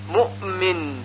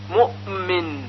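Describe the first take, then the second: No difference in how they are said.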